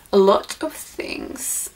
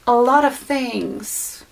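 First: Quiet breathy-sounding silly voice, softer and slower; silly put-on voice. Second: Said in the usual way. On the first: Shown as a demonstration. Vlogger unboxing gifts, slipping into a silly voice. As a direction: drop into a goofy whispery voice on a whim. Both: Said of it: "I don't know why I did that voice".

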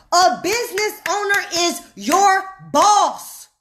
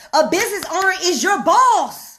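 First: "A business owner is your boss" slowed, with separated words; emphatic repetition. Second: Said in the usual way. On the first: Shown as a demonstration. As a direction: set "your" and "boss" apart with pauses. Repeats the point word by word.

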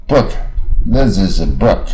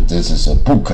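First: "book" slow, with the short r-coloured vowel; "this is a book" read slowly, "book" clipped short; correct slow book. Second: "book" with a long oo like Chinese 乌; wrong book. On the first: Teacher models the correct "book" for the class. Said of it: "乌加耳变成wood". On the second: Teacher shows the common wrong "book" for contrast. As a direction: say "book" as a plain Chinese 乌 vowel. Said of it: "而不是". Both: Shown as a demonstration.

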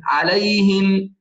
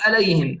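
First: عليهم slower, with a full pharyngeal ع; correct ayn. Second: عليهم quick, with ع weakened to a plain vowel, "aleyhim"; mispronunciation demo. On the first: Teacher corrects it, drawn-out عليهم with clear ع. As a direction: open عليهم from the throat and lengthen it. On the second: Teacher shows the mistake, عليهم without a true ع. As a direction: drop the throat sound from عليهم. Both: Shown as a demonstration. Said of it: "لا نقول عليهم".

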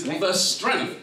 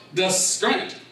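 First: Said in the usual way. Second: STRENGTH said as "skrent", K replacing T; Gullah pronunciation. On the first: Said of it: "that is, the strength". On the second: Shown as a demonstration. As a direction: open strength with skr-. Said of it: "strength is pronounced as scrunch".

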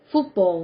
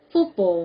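Both takes have the same delivery.

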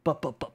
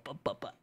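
First: Said in the usual way. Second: Breathy whispered chant. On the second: Pretend. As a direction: whisper the repeats playfully. Wagging along to clip.

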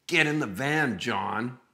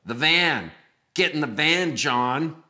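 First: Mock movie-psycho order, raised then dropping on the name; creepy kidnapper. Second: Loud, high mock-psycho order; insistent creepy kidnapper. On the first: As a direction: play at being the captor giving orders. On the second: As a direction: repeat the captor's command more forcefully. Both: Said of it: "in that type of voice".

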